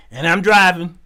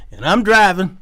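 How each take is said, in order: Both takes have the same delivery.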